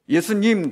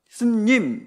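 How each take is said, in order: First: All three syllables are said in full. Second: The first syllable is dropped, leaving two. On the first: The speaker calls it right. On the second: The speaker calls it wrong.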